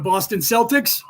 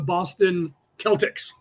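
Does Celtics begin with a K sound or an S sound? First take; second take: S sound; K sound. First: Celtics begins with a soft S sound. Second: Celtics begins with a hard K sound. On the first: The speaker calls it wrong. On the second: The speaker calls it right. "They should have been the Boston Celtics"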